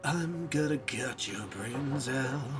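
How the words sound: It is said in a sinister, menacing tone. "say sinisterly"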